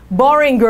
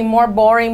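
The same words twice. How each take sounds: First: "boring" with an extra "-er" glued to the end; mock wrong form, "boring" ending in "-inger"; tacked-on R ending. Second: Said in the usual way. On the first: Shown as a demonstration. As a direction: add a clumsy long R after "boring". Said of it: "com R no final". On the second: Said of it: "botar um more na frente deles".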